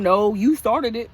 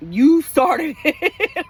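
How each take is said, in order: First: Said in the usual way. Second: High, slow, louder, breaking into a laugh; childish laughing retort. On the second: Acted. To her husband, mock childish blame with a laugh. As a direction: drag it out like a bratty kid, then giggle. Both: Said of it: "I'm such a child".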